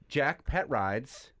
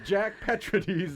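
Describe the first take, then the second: First: The surname ends sounding like 'rides'. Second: The surname ends sounding like 'rades'. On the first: The speaker calls it wrong. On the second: The speaker calls it right.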